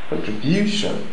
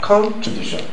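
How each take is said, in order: First: The stress is on the third syllable. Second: The stress is on the first syllable. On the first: The speaker calls it right. "it is on the third syllable" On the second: The speaker calls it wrong. "If it's on the first, to be like contribution"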